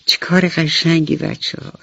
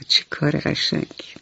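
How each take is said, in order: First: Said in the usual way. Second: Put-on whispered چه کار قشنگی to young listeners; whispered echo. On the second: Shown as a demonstration. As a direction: repeat چه کار قشنگی as a soft breathy whisper.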